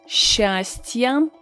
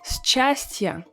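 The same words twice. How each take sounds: First: The middle cluster sounds like a single sh. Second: The middle cluster sounds like s plus ch. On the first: The speaker calls it right. "So we pronounce it as sh" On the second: The speaker calls it wrong. "you will sound really unnatural"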